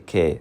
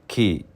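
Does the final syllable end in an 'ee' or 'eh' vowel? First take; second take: eh; ee. First: The syllable ends with an 'eh' vowel. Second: The syllable ends with an 'ee' vowel. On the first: The speaker calls it wrong. "you don't say ke" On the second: The speaker calls it right. "the last three words ki, you say"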